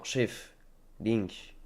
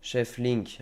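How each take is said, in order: First: "chef", a clear pause, then "Link"; pause before Link. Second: Said in the usual way. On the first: Shown as a demonstration. Streamer correcting the reading like a French teacher, pausing before "Link". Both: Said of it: "le prof de français".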